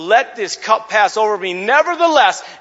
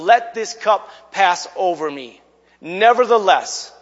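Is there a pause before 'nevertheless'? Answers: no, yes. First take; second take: no; yes. First: There is no pause before 'nevertheless'. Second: There is a pause before 'nevertheless'. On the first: The speaker calls it right. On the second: The speaker calls it wrong.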